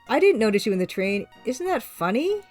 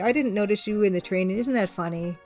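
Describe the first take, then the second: First: It is read in a doubtful, questioning tone. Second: It is read in a sincere, genuine tone. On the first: She doubts or challenges him. "Like she's questioning him" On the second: She really finds it funny. "she could be sincere"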